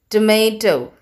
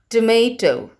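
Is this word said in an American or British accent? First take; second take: American; American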